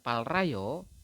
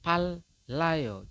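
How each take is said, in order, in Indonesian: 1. Bagian tengahnya dilafalkan l lalu r. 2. Bagian tengahnya dilafalkan sebagai l ganda. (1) "bukan palrayo" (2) "dibacanya adalah pallayo. Jadi double L"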